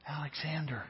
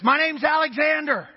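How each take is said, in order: First: A little louder. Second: High, loud shout of the name; top of his voice. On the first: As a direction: still hushed, a touch louder. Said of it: "And a little bit louder". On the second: The soldier finally shouting his name to the king. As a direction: blurt it out at full voice. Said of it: "at the top of his voice says". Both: Acted.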